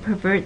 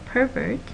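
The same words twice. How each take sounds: First: The stress is on the second syllable. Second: The stress is on the first syllable. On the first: It is a verb meaning to distort. "with verbs the stress is toward the end" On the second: It is a noun naming a person. "with nouns the stress is in the first syllable"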